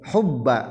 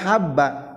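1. Vokal pertama adalah 'u' membulat. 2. Vokal pertama adalah 'a' terbuka. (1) "tapi jadi kumaha tuh hubba macana" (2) "ha ulah habba"

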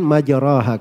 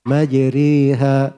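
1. Vokal setelah r adalah 'a' terbuka yang biasa. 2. Vokal setelah r condong ke 'e'. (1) "tadinya kan majraha kan gitu" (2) "Itu imala kubra di situ ya"

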